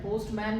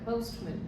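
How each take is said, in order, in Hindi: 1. अंतिम अक्षर में पूर्ण स्वर है। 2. अंतिम अक्षर में कमज़ोर, हल्का स्वर है। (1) "पोस्टमैन नहीं होता है" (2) "सफिक्स को हमेशा कम मतलब लेस प्रोनाउंस करो"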